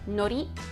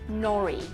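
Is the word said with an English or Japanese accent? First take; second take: Japanese; English. First: It is said with Japanese pronunciation. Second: It is said with English pronunciation. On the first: "instead of nori" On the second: "we might say nori. We just anglicize it"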